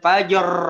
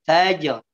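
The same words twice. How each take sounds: First: The j is bounced far too strongly. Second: The j is bounced only moderately. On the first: The speaker calls it wrong. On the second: The speaker calls it right.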